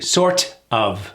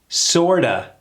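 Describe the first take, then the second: First: The T is clearly and strongly pronounced. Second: The T is softened, like a quick D. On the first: The speaker calls it wrong. "really hit that T" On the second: The speaker calls it right. "This is reduced to sorta"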